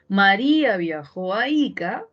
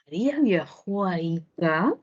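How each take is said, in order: First: The pitch falls at the end. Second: The pitch rises at the end. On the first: It states a fact. "nos daremos cuenta de que el tono baja" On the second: It asks a question. "tendría que subir el tono"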